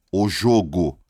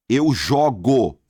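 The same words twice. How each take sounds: First: "jogo" with a closed first O, as the noun; loud, slow "jogo", first O rounded. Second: "jogo" with an open first O, as the verb; loud, slow "jogo", first O wide open. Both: Shown as a demonstration. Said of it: "só que o som muda".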